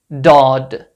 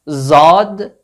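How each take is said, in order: First: It starts with a plain, light D sound. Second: It starts with a plain Z sound. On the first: "not Dad" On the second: "Not Zad"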